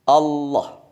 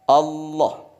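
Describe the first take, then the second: Both takes have the same delivery.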